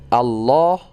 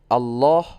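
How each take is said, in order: Both takes have the same delivery.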